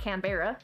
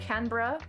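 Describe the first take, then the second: First: It is pronounced the way non-Australians say it. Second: It is pronounced the way Australians say it. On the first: The speaker calls it wrong. "not Canberra" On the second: The speaker calls it right. "I believe is how my Aussie friends said that's supposed to be pronounced"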